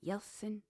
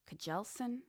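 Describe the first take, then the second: First: Jelsen said as "Yelsen", no K; silent K. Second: Kjelsen with the K pronounced; K sounded. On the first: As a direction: drop the K and start Jelsen on a Y sound. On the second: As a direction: say Kjelsen with a hard K before the J sound. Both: Shown as a demonstration. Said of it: "unless the K is silent".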